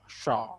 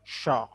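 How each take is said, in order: First: The syllable is said with protruding, rounded lips. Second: The syllable is said with protruding, rounded lips.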